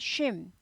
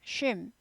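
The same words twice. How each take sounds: No difference in how they are said.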